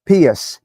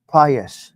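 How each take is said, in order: First: "Pius" said as PEE-es; unsure pronunciation. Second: "Pious" said as PIE-us; corrected pronunciation. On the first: Real, not acted. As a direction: say "Pius" with an ee in the first syllable, PEE-es. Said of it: "not sure of how you pronounce this". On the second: Shown as a demonstration. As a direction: say "Pious" with a long i first, PIE-us. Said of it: "How do you say it?".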